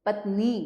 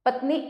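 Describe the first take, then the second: First: Said in the usual way. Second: पत्नी with a short final "ni"; पत्नी said "pat-nih"; misspelt short ending. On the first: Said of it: "सामने शुद्ध करके". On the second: Shown as a demonstration. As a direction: end पत्नी quickly and higher. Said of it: "अशुद्ध शब्द लिखे हुए".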